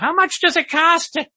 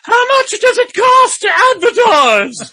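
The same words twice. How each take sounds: First: It is said in an ordinary speaking voice. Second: It is said in a put-on elderly female voice.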